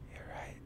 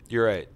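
First: It is said in a soft ASMR whisper. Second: It is said in a normal speaking voice.

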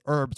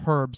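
First: The word begins with a vowel, H silent. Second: The word begins with an audible H sound. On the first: This is the American way of saying it. "the American pronunciation is herbs without the H" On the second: This is the British way of saying it. "the British pronunciation is herbs with an H"

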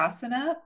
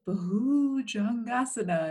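First: The word is said flatly, without feeling. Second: The word is said expressively, drawn out. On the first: The word carries no sense of the posture. The speaker calls it wrong. "if you just say it like that, it's kind of like whatever" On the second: The word conveys the feeling of the posture. The speaker calls it right. "she would say Bhujangasana, and it's like that feeling of lengthening up"

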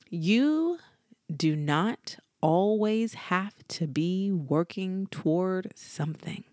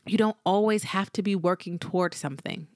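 First: It is spoken very slowly. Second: It is spoken at a normal pace.

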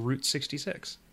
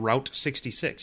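First: Route sounds like root. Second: Route rhymes with out. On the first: The speaker calls it right. "You say get your kicks on Route 66" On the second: The speaker calls it wrong. "You don't say get your kicks on Route 66"

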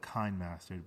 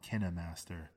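First: The first part is said as 'kine'. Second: The first part is said as 'kina'. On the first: The speaker calls it wrong. "We call it KineMaster, but it's not KineMaster" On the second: The speaker calls it right. "It's called Kina"

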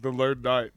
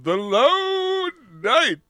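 First: The name is said in a plain, casual way. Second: The name is said with grand, dramatic inflection. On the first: "can we just be like the Lone Knight?" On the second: "Do we have to apply the inflection every time"

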